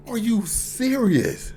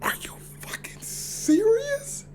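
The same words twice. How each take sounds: First: Slow, drawn-out voiced disbelief; incredulous, stretched out; stunned disbelief. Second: Slow whispered disbelief; hushed shock; stunned whisper. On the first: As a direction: let the shock land slowly. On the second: Retold or imitated. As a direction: breathe it out, stunned. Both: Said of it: "I'm just like".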